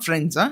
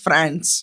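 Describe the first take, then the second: First: The word is said with a plain standard vowel. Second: The word is said with an open vowel, like France. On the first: "it's not ఫ్రెండ్స్" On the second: "it's ఫ్రాన్స్"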